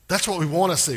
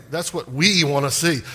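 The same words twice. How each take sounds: First: Said in the usual way. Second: Emphatic, stretched "we"; stress on WE. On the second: Shown as a demonstration. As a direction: lean hard and long on "we". Repeats it, leaning on "we.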